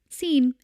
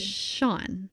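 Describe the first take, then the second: First: The name is pronounced like 'seen'. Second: The name is pronounced like 'shawn'. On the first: This is how the man himself said his name. The speaker calls it wrong. "this man apparently would pronounce his name" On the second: This is the usual way the name is said. The speaker calls it right. "because it's S E A N, which is"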